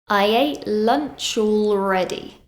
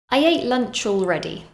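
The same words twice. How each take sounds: First: It is said slowly and deliberately. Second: It is said at a natural, quick pace.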